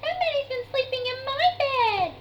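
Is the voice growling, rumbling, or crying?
crying. It is cried in Baby Bear's voice.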